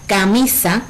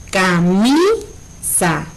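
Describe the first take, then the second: First: Said in the usual way. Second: "camisa" slowly, MI stretched long and rising; stress on MI. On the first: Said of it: "Si pronunciamos la palabra". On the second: Shown as a demonstration. Teacher showing the tonic syllable, "camisa" with drawn-out stressed MI. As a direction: break up "camisa" as ca-MIII-sa, leaning on MI. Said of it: "la que pronunciamos más fuerte".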